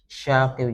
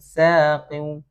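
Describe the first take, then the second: First: The word begins with a sh sound. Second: The word begins with a thin s sound. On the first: The speaker calls it wrong. "jangan terbawa shin" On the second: The speaker calls it right. "sin tipis"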